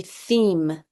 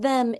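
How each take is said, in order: First: "theme" said with a long e, like "eem"; long vowel demo. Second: "them" said with a short e; short vowel demo. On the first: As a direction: stretch the e in "theme" so it says its name. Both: Shown as a demonstration. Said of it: "your silent E".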